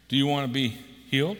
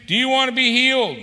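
First: Said in the usual way. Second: Loud, high preached question; fervent booming question; preached aloud. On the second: Shown as a demonstration. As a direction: call the question out from the pulpit.

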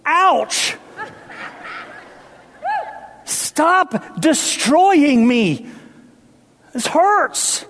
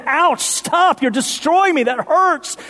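First: High, slow pained cry of the house; a wounded house begging, high and drawn out. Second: High pained cry of the house. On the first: The preacher voicing the old house in pain. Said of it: "They'd say". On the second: Preacher voicing the house under the jackhammer. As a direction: wail it like the hurting house. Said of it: "As they say". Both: Acted.

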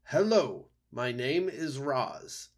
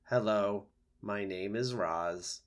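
First: Raised owl voice, drawn-out mimicry of a greeting; owl quoting the creature. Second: Even, slow robot greeting; robot introducing herself. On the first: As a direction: imitate the mysterious creature's greeting, higher at first. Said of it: "I think it was saying". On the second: A narrator's reading. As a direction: introduce yourself slowly at an unexcited, level pitch. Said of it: "using her body and voice, the robot spoke".

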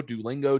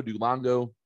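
First: Duolingo said as "doo-LING-go"; standard pronunciation. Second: Duolingo said as "doo-LONG-go"; mispronounced name. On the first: Trying out the app's name, Duolingo as "doo-ling-go". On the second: Comparing versions of the app's name, Duolingo as "doo-long-go". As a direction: swap the "ling" in Duolingo for "long". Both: Shown as a demonstration.

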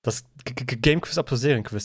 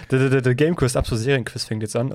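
First: Stammered announcer jingle; stuttering jingle intro. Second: Jingle intro. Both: Acted. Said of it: "das ist der Einspieler".

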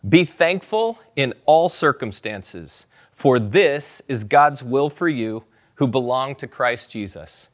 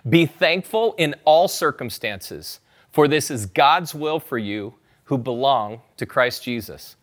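First: Slow, weighty reading of the verse; measured scripture recital. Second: Repeated scripture reading. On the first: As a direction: read each word of the verse slowly. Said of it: "say it out loud". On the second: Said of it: "You've heard me say it twice". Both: Shown as a demonstration.

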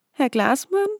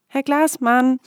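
First: Higher, rising questioning call; hesitant call. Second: Higher, louder calling out. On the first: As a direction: call out unsure into the woods. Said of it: "rief nach einigem Zögern". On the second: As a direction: call his name urgently. Louder repeat of call. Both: A narrator's reading.

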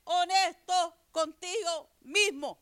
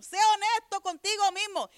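First: Each word drawn out slowly; slow, deliberate preaching emphasis; slow emphatic repeat. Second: Sé honesto contigo mismo lifted higher, stress on honesto; higher, more insistent preaching repeat; raised emphatic repeat. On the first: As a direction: spell it out slowly for the congregation. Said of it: "Yo sigo repitiendo". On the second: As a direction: press it home a second time, higher. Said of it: "Llevo años repitiendo lo mismo". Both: Real, not acted.

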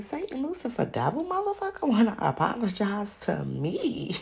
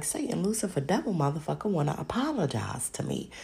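First: High, incredulous question; shocked disbelief. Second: Said in the usual way. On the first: Retold or imitated. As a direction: repeat it in utter disbelief. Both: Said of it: "But I was shocked".

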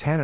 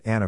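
First: Hannah with the H sounded at the start. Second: Anna with no H at the start; H dropped. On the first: Correcting someone's articulation of a name, H sounded. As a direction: say Hannah with an audible initial H. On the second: Showing the poorly articulated name, H dropped. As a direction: say Anna starting straight on the vowel. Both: Shown as a demonstration. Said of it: "It's Hannah, not Anna".

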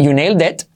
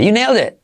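First: "you nailed it" with a clear final T; "you nailed it", every consonant sounded; pronounced final T. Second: "You nailed it" high, final T dropped; "nailed it" as "neyl-de", pitched up; almost silent T. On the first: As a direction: finish "it" on an audible T. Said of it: "Tú puedes decir". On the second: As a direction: swallow the T of "it". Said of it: "pero casi no se oye". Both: Shown as a demonstration.

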